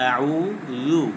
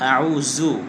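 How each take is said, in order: First: The last syllable has a thin th-like sound. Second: The last syllable has a buzzing z-like sound. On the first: The speaker calls it right. "পাতলা করে" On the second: The speaker calls it wrong. "জু জু এভাবে পড়ে জু"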